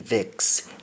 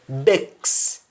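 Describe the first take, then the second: First: The word begins with a V sound. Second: The word begins with a B sound. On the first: This is the standard English form. "to mean vex" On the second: This is the Jamaican patois form. "V will be pronounced as though it is letter B"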